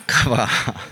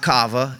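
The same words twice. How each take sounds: First: "kava" as kah-VAH, last syllable stressed, with a small laugh; correct stress. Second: "kava" as KAH-vuh, first syllable stressed; wrong stress. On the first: Youth leader giving the right Hebrew stress, "kava" said kah-VAH with a little laugh. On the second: Youth leader showing the wrong way to say the Hebrew word, stress on the first syllable of "kava". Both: Shown as a demonstration. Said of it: "Different emphasis on the syllable right there".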